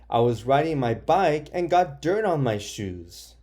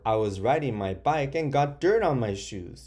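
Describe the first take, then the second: First: It is shouted in an upset way. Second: It is read in a flat, unexcited way. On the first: The speaker calls it right. "Make it sound like you're upset. I guess this person is upset. That's why they're shouting it" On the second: The speaker calls it wrong. "I didn't sound that excited"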